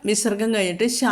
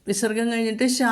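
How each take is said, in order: No difference in how they are said.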